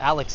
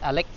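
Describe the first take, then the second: First: The name ends with a ks sound. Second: The name ends with a plain k sound. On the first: "the name Alex is not Alex here" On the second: "So I'm missing an X most of the time"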